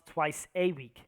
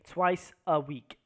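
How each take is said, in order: First: The word 'a' is a full stressed 'ay'. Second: The word 'a' is a short unstressed schwa. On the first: The speaker calls it wrong. "not twice a week" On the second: The speaker calls it right. "I say twice a week, ... A is very common here ... because it's not a stressed word"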